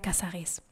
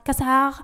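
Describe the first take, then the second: First: The name ends with a pronounced final es syllable. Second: The name ends without a final es syllable. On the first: The name keeps its final syllable. "pone un acento al final para que los franceses tengan que pronunciar" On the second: The name loses its final syllable. "en Francia no se pronuncia la E S, entonces se pronunciaba Marie Casar"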